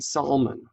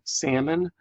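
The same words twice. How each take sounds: First: The word is said with an extra sound added. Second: The word is said with no extra sound. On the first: The speaker calls it wrong. "saying salmon" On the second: The speaker calls it right. "Instead of saying salmon"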